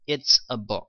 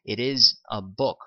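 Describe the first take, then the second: First: It is contracted into one syllable. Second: It is said in full as two words. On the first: "it's a book 이렇게 하셔도 된다라는 거" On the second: "it is a book 라고 하셔도 되고"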